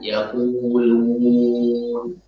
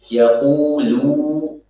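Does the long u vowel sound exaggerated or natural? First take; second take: natural; exaggerated. First: The long u is relaxed without pressing the lips. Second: The long u is forced with tightly pressed lips. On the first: The speaker calls it right. "harusnya biasa saja, tidak berlebihan" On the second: The speaker calls it wrong. "Ini terlalu berlebihan dalam menekan"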